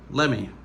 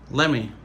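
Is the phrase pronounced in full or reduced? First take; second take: reduced; reduced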